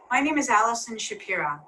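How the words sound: The voice falls at the end, like a statement. The speaker seems confident and authoritative. The speaker calls it right. "here's an example of straight talk"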